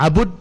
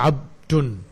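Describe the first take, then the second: First: A u vowel follows the b sound. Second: No vowel follows the b sound. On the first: "Abud dengan dhammah diba" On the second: "disukunkan di ba-nya"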